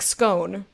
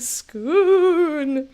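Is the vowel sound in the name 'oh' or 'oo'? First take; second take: oh; oo. First: The vowel is a long 'oh' sound. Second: The vowel is a long 'oo' sound. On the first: "that would just be O" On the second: "scoon with an oo sound like a spooky ghost"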